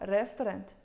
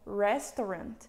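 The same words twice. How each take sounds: First: It is said with an Indian accent. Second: It is said with a standard English accent. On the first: Everyone in India will understand it. "todo mundo vai saber que é restaurante" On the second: Not everyone in India will understand it. "não necessariamente todo mundo vai entender"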